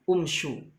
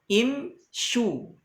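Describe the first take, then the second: First: The word begins with a u vowel. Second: The word begins with an i vowel. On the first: The speaker calls it wrong. "tidak dibaca um umshu" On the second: The speaker calls it right. "maka dibaca apa? Imshu"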